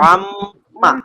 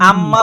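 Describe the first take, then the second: First: It begins with a constricted throat consonant. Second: It begins with a plain glottal stop. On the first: The speaker calls it right. "আইন আম্মা" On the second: The speaker calls it wrong. "হামজা দিয়ে বলা যাবে না"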